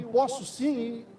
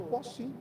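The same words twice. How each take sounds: First: Slow, stretched "posso sim" with each syllable dragged; drawn-out promise. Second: Said in the usual way. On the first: Shown as a demonstration. Preacher mocking the friend's forgotten promise, slow and stretched. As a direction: drag out "posso sim" like an empty promise fading. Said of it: "vai esquecendo". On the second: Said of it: "Só que o "posso sim" vai esquecendo".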